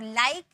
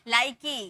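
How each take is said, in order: First: The word ends on the k consonant. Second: The word ends with an added ee vowel. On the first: The speaker calls it right. "ई का कोई sound नहीं होता है" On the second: The speaker calls it wrong. "ऐसे नहीं पढ़ेंगे"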